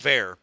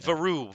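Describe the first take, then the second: First: The name is said with an English-style pronunciation. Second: The name is said with a French-style pronunciation. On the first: This is the version used locally. The speaker calls it wrong. "that's what he's telling people in Pitt to pronounce it as" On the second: This is the original version of the name. The speaker calls it right. "Embrace your French-Canadian roots. Tell us how it's really pronounced"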